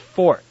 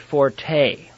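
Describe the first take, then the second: First: The word ends with a 't' sound. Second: The word ends with an 'ay' sound. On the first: The speaker calls it right. "The proper pronunciation is fort" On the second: The speaker calls it wrong. "the E is A"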